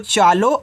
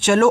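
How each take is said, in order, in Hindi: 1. पहला स्वर लंबा है, जैसे 'aa'. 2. पहला स्वर छोटा है, जैसे 'a'. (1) "आप चालो पढ़ रहे हो" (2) "ए को साइलेंट करके"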